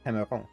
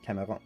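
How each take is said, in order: First: The name has a French pronunciation. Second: The same.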